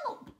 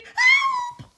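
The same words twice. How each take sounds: First: Brief, restrained cry for help; a mild storybook scream, held back; toned-down scream. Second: Very high, very loud scream for help; piercingly high storybook shriek. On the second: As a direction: scream it in full earnest. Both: A narrator's reading. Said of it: "Betty screamed".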